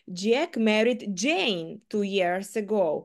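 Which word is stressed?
Jane. The stress is on the word Jane. It was Jane, not someone else, whom Jack married. "Джек одружився саме на Джейн 2 роки назад"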